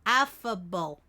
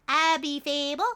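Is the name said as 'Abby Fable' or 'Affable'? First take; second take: Affable; Abby Fable. First: It is said as one word, affable. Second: It is said as two words, Abby Fable. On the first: The speaker calls it right. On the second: The speaker calls it wrong.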